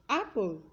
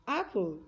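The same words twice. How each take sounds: The two takes are said the same way.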